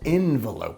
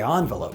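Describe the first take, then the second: First: The first syllable is said with an 'e' sound. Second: The first syllable is said with an 'o' sound. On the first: "It's spelled envelope with an E" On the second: "smart people say envelope"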